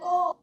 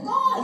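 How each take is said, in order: First: It is said in a calm, normal voice. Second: It is shouted loudly and sharply.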